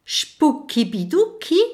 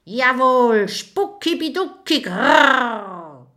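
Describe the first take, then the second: First: Higher, questioning echo rising at the end; puzzled repeat. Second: High, emphatic spook voice ending in a growl; ghost growl. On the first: Little dragon puzzled, repeating the ghost's strange words. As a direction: repeat the odd words, baffled. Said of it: "wiederholt Kokosnuss". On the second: Ghost firmly confirming its words to the dragon. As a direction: insist on it like a proud ghost. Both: Acted.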